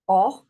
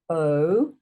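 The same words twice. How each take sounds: First: A short, loud "o" as in "not"; short o sound. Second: A long, louder "o" as in "note"; long o sound. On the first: Teacher showing pupils the short o vowel. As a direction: punch out a clipped short o. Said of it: "So that's the short sound". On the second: Teacher showing pupils the long o vowel. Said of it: "Long sound is". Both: Shown as a demonstration.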